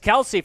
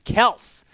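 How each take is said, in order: First: The name is said with two syllables. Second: The name is said with one syllable. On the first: This is how people have been saying it for years. The speaker calls it wrong. "we've been calling Travis Kelce" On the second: This is apparently the correct way to say it. The speaker calls it right. "Apparently, you pronounce it Kels"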